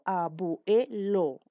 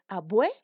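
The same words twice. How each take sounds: First: The word is said in four syllables. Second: The word is said in three syllables. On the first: The speaker calls it wrong. "Yo no digo abuelo, imposible" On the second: The speaker calls it right. "automáticamente lo separo en tres sílabas"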